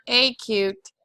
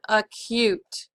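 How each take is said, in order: First: "acute" mispronounced as AY-cute; "acute" with first vowel as the letter A; long A sound. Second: "acute" said as uh-CUTE; "acute" opening on a schwa, then CUTE; schwa sound. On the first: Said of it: "the open syllable saying A". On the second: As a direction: reduce the A of "acute" to a soft uh. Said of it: "It has the schwa sound". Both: Shown as a demonstration.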